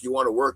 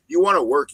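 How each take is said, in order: First: Said in the usual way. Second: Louder, higher punch on "work"; "You wanna work" called out like an order; emphatic. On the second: Real, not acted. Hammering the point home.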